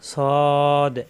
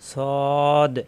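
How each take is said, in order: Both takes have the same delivery.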